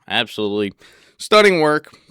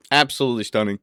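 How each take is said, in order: First: Bursts out loud on stunning work; gushing loudly. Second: Said in the usual way. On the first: Real, not acted. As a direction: rave at full volume. Admiring the bedroom.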